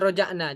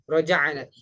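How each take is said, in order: First: The middle consonant is a plain glottal stop. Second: The middle consonant is a throaty pharyngeal ain. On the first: The speaker calls it wrong. "Kalau roja'na berarti itu hamzah" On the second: The speaker calls it right. "Sedangkan ini pakai ain"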